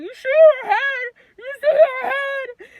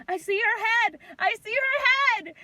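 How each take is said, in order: First: Very high, loud, slurred wail; muffled by mask. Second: High, loud announcing shout; excited doctor. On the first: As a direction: wail the question as if through a mask. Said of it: "'Cause I got the mask on". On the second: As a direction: call it out like a thrilled doctor. Doctor calling out at birth, retold. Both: Retold or imitated.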